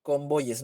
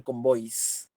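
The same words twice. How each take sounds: First: "Convoyes" with a full final -yes syllable; correct plural. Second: "convoys" in two syllables, ending -ois; wrong plural. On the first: Teacher modelling the proper plural, "Convoyes" ending in a spoken -yes. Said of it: "Va a ser convoyes". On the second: Teacher showing the plural to avoid, "convoys" ending in a short -ois. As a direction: say "convoys" with S straight after the oi glide. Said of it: "no voy a decir". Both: Shown as a demonstration.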